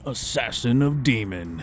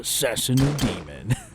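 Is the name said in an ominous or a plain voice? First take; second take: plain; ominous. First: The name is said in a plain, ordinary voice. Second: The name is said in a dramatic, ominous voice.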